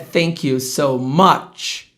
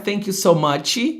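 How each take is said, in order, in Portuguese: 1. O ch final termina sem vogal acrescentada. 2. O ch final é seguido de uma vogal acrescentada. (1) "é" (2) "Não é"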